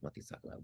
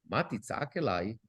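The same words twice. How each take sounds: First: Ma titzak elai whispered, much softer; whispered repeat. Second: Said in the usual way. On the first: Shown as a demonstration. Teacher rereading God's question to the class, whispered. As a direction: whisper the question under the breath. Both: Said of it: "What are you talking about".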